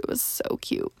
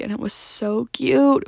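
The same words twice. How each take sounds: First: Repeated as a breathy whisper. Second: Said in the usual way. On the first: Real, not acted.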